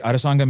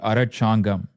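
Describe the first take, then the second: First: The middle consonant is an s sound. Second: The middle consonant is a ch sound. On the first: This is how the word is actually said. The speaker calls it right. "that C H becomes a sa in the middle" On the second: This reads the written letters one by one. The speaker calls it wrong. "If you were to read it character by character, literally"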